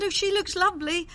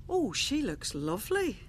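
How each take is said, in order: First: Gushing repeat. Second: Said in the usual way. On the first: Retold or imitated. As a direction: replay the gushing compliment pitched well up. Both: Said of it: "That's what I said".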